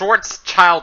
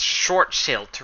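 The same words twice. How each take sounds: First: The name is pronounced in an English way. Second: The name is pronounced in a German way. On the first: The speaker calls it wrong. "it's not sh Schwarzschild radius" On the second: The speaker calls it right. "it's actually a German name"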